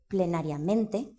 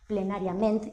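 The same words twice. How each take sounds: First: The word ends with a final vowel sound. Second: The word ends without a final vowel. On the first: "en lugar de" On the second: "esa apócope"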